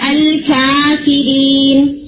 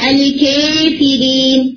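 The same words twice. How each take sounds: First: The long a vowel is fully open. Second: The long a vowel is raised close to e. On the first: "فتحہ جو ہے وہ ہے الکافرین" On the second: "اور ایمانہ ہے الکافرین"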